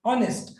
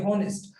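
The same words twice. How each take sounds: First: "ऑनेस्ट" with a silent h; "ऑनेस्ट" opening on a clean "o" sound; correct pronunciation. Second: "हॉनेस्ट" with the h sounded; students' mispronunciation. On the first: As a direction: say "ऑनेस्ट" starting straight on the vowel, no h. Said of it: "इसका actual जो pronunciation है वो ऑनेस्ट है". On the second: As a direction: say "हॉनेस्ट" with an audible h at the start. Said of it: "जो बच्चे इसको हॉनेस्ट बोलते हैं". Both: Shown as a demonstration.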